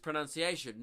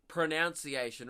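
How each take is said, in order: First: The second syllable sounds like 'nun'. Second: The second syllable sounds like 'noun'. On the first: The speaker calls it right. "The correct the correct pronunciation is" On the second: The speaker calls it wrong.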